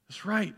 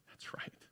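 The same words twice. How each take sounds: First: Higher, fully voiced agreement; higher, voiced "That's right"; voiced affirmation. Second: Breathy whisper of remembering; soft whispered aside; whispered realisation. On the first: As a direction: say it out loud now, convinced. Same words repeated, now fully voiced. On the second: Retold or imitated. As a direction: whisper it to yourself as it dawns. Quiet realisation in his retold answer.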